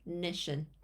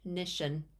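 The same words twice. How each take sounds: Both takes have the same delivery.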